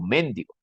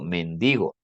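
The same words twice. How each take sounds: First: The stress is on the first syllable. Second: The stress is on the second syllable. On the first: The speaker calls it wrong. "Yo no digo mendigo" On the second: The speaker calls it right. "digo mendigo"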